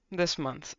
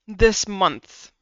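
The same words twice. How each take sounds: First: Quieter echo of This month; soft repeat. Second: This punched louder; emphatic. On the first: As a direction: drop it down, almost to yourself. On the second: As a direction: stress the word This, firm and loud. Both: Shown as a demonstration.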